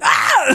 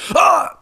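First: It is a high, shrill screech. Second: It is a low, deep groan.

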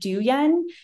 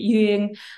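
First: The name is said with an English-speaker pronunciation. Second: The name is said with a Southern Vietnamese pronunciation. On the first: The speaker calls it wrong. "But in English, like, it's always like people are like, oh, is it Duyen?" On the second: The speaker calls it right. "a lot of people from the South pronounce it Duyen"

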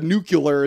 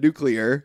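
First: The word ends with an added 'u' sound, 'cular'. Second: The word ends with 'clear', without an added 'u'. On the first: The speaker calls it wrong. "he said a nuclear instead of nuclear" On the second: The speaker calls it right. "No U in the second part of nuclear"

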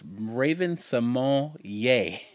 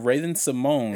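First: The name ends with an extra 'ay' sound. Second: The name ends on the 'mone' sound. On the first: The speaker calls it right. "it has an accent at the end of it. And it's actually pronounced [name]" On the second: The speaker calls it wrong. "We've been calling her Raven Simone"

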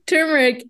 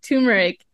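First: The first syllable sounds like 'tur' with an r. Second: The first syllable sounds like 'too' without r. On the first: The speaker calls it right. "it's turmeric" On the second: The speaker calls it wrong. "I said turmeric"

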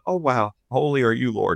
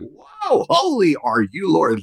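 First: It is said in a calm, steady voice. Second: It is said in a vibrating, trembling voice.

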